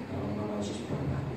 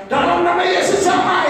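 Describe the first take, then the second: First: Whispered under the breath; quiet prayer. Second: High, loud and slow, a showy shout; shouted showy prayer. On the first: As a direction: pray it in a hushed whisper, no shouting. (doa berbisik pelan) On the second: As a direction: belt it out to be noticed, slowly. (doa teriak-teriak untuk pamer, pelan dan keras) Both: Shown as a demonstration. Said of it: "nggak usah teriak-teriak".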